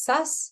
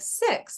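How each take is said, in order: First: The word has a centralized, neutral vowel. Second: The word has a clear, full vowel. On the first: The speaker calls it wrong. "that doesn't sound like six" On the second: The speaker calls it right. "six, I get it"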